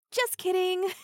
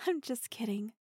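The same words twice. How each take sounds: First: Higher and louder, triumphant tease; spring the trick on him loudly; gleeful mocking gotcha; loud teasing gotcha. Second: Light chuckling gotcha. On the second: Acted. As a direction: laugh it off gently. Soft laughing reversal.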